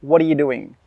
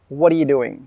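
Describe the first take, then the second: First: The words are run together with linked sounds. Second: The words are run together with linked sounds.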